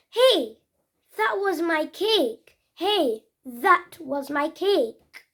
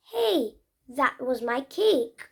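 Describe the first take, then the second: First: A hint of a protesting child; mild mock complaint; example sentence. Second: Slow, careful example; slow clear "that was my cake"; slower repeat. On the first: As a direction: act "Hey, that was my cake" lightly. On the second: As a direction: say the sentence again slowly. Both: Shown as a demonstration. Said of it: "That's a example".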